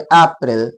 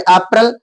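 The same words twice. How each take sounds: First: April said the British English way, अप्रैल with an open final "el"; British English accent. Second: April said the American English way, अप्रैल as "ay-pril"; American English accent. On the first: Teacher demonstrating the British English accent on अप्रैल. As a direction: say अप्रैल like a Brit would. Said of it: "British टंग में अप्रैल". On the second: Teacher demonstrating the American English accent on अप्रैल. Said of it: "American टंग में अप्रैल". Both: Shown as a demonstration.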